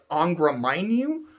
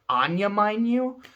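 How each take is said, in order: First: The first word has a 'gr' sound in the middle. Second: The first word has a 'y' sound in the middle. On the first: "The way it's spelled looks like" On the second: "it's like a Y, so you hear like"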